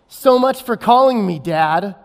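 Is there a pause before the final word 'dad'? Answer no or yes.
no. It runs on without a pause before dad. Nobody wants to call the speaker dad. The speaker calls it wrong.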